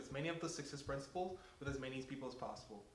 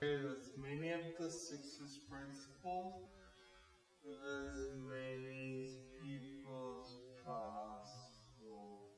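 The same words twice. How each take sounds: First: It is said very fast. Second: It is said slowly.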